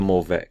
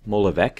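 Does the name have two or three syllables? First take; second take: two; three. First: The name is said with two syllables. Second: The name is said with three syllables. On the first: The speaker calls it wrong. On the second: The speaker calls it right.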